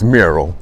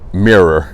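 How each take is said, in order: First: It is said in a standard accent, as 'mural'. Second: It is said in a Southern accent, like 'mirror'. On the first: The speaker calls it right. "let me say it right" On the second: The speaker calls it wrong.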